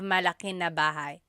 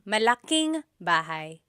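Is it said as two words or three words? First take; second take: three words; two words. First: Malaki and na are said as separate words. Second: Malaki and na are joined into malaking. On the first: "instead of" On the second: "you can make a contraction"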